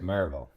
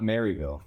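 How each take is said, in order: First: The middle y sound is reduced and swallowed. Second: The middle y sound is clearly pronounced. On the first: The speaker calls it right. "a real uh, down cycle on the Y" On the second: The speaker calls it wrong. "it's not Maryville"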